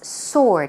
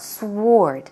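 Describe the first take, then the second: First: The W is silent, sounding like sord. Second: A W sound is heard after the S. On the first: The speaker calls it right. "The pronunciation for that is sword" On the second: The speaker calls it wrong. "It's not sword"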